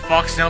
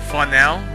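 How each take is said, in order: First: The x sound is pronounced in the name. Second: The x sound is left silent in the name. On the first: "I'm just gonna go ahead and pronounce it Foxnell" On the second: "if the X was silent, then it'd be like Fanel or Fonel"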